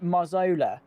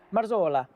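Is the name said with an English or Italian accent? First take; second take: English; Italian. First: The name is said with an English accent. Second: The name is said with a strong Italian accent. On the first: The speaker sounds like a snob. "that just sounds like a snob" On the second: The speaker seems to switch languages mid-sentence. "have a very Italian accent when you pronounce an Italian name"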